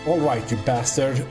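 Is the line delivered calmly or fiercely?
fiercely. It is said fiercely, with a forceful cry. The speaker calls it right.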